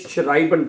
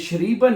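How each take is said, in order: First: The first vowel sounds like 'eye'. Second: The first vowel sounds like 'ee'. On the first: The speaker calls it right. "इसको आपने शराइबन पढ़ना है" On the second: The speaker calls it wrong. "इसको आपने शरीबन नहीं पढ़ना"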